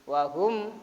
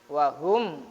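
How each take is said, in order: Both takes have the same delivery.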